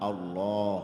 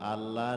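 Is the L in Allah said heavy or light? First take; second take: heavy; light. First: The L sound is heavy and thick. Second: The L sound is light and thin. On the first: The speaker calls it right. "আল্লাহ শব্দ মোটা করিয়া পড়িতে হয়" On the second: The speaker calls it wrong. "না"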